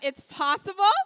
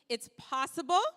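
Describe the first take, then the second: First: It is said with more energy. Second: It is said with little energy.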